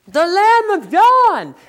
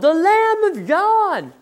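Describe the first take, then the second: First: It sounds pointed and impatient, pushing listeners away. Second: It sounds like a plain public announcement. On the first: Why are you still here instead of following him? "I think the tone and the attitude changed. It was like" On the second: This is who the promised one is. "on day two, John said"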